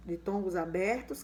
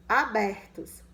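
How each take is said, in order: First: Said in the usual way. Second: Abertos said louder and by itself; stressed abertos. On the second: Shown as a demonstration. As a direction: lean hard on abertos. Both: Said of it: "os ditongos abertos".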